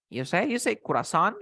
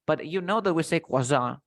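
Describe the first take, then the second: First: Croissant said as kuɹɑsɑ̃n with an extra r sound; mock the learner's croissant with an r in it; imitating student's croissant. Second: Croissant said kwɑsɑn, no r, French style. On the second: Shown as a demonstration. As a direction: say croissant the French way, kwa-sahn.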